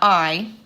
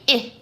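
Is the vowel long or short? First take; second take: long; short. First: The vowel is long, as in 'eye'. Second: The vowel is short, as in 'ill'. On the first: The speaker calls it wrong. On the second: The speaker calls it right. "because there's a door after it, and this is a closed syllable"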